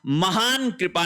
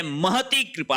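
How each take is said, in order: First: महान कृपा with long "haan"; wrong form. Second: महती कृपा as "ma-ha-tee"; correct form. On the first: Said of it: "महान कृपा नहीं होता है". (महान कृपा में "हान" लंबा) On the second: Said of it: "महती कृपा होता है". (महती कृपा में "ती" साफ़) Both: Shown as a demonstration.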